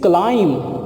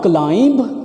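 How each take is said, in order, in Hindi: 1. अंत में कोई b ध्वनि सुनाई नहीं देती। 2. अंत में b ध्वनि उच्चारित होती है। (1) "बी इज silent here, it इज क्लाइंब" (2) "it इज़ not क्लाइंब। क्लाइंब बी नहीं आपने प्रोनाउंस करना"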